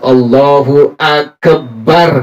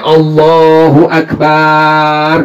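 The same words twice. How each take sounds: First: The b in Akbar is doubled. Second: A vowel in the phrase is stretched long. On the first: "tidak ada tasdidnya atau syiddahnya. Nggak boleh kita bilang" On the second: "Dipanjangin nggak boleh"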